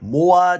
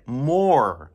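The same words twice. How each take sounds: First: The word ends with little or no r sound. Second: The word ends with a strong American r sound. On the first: The speaker calls it wrong. "more じゃなくて" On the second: The speaker calls it right. "ダルビッシュさんのR の発音聞きましたか？"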